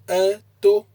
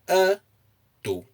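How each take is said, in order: First: The pitch is high on both syllables. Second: The pitch is high on the first syllable. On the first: It means he went out. "if you place the intonation on the a and the to" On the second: It means he is muscular. "if you place the intonation on the a"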